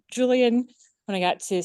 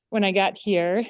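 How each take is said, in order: First: Breathless after rushing in; winded, words cut short by breath. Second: Said in the usual way. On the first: Real, not acted. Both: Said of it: "sorry, I'm out of breath".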